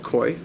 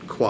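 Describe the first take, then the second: First: The name sounds like 'koy' with an oy vowel. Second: The name sounds like 'kwah' with an ah vowel. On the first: The speaker calls it wrong. "I never pronounced it right" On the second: The speaker calls it right.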